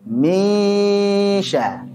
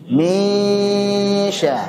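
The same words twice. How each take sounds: Both takes have the same delivery.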